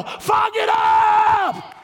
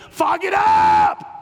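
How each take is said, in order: First: Much higher, very slow shout of fog it up; very high drawn-out shout. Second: Slow shouted fog it up; shouted slowly. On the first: Pastor ridiculing the excuse, high slow shout. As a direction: stretch it out high and loud. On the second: Pastor mocking an excuse, shouting slowly. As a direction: bellow the phrase, drawn out. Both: Acted. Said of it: "I said F O G it up".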